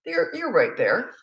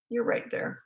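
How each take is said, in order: First: Voiced, slow and gentle; spoken reassurance. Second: Whispered, unvoiced, gentle; whispered reassurance. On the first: Mother reassuring a child mid-tantrum, calm and slow. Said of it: "spoken first take". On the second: Mother reassuring a child mid-tantrum, in a whisper. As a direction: breathe it to the child so they feel you near. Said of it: "soft whispered repeat". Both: Shown as a demonstration.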